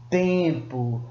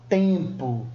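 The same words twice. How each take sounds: The two takes are said the same way.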